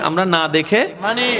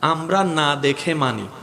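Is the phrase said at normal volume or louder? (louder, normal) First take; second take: louder; normal. First: It is said a bit louder. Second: It is said at a normal volume.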